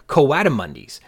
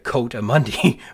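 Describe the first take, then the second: First: The start splits into two syllables, co-a. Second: The start sounds like the single syllable coat. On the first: The speaker calls it right. "but instead like Croatia" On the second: The speaker calls it wrong. "They don't sound like something you wear in the winter"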